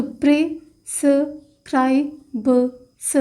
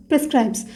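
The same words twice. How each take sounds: First: prescribes stretched very slowly while writing; drawn-out word. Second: Said in the usual way. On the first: Shown as a demonstration. Teacher writing shorthand stroke on board, very slow. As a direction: spell out prescribes slowly, syllable by syllable. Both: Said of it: "तो stroke create होगा".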